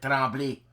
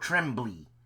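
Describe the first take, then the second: First: The name is said with a French pronunciation. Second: The name is said with an English pronunciation. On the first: This is how French speakers say it. "us Frenchmen, we call it Tremblay" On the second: This is how English speakers say it. "That's the way you would pronounce it"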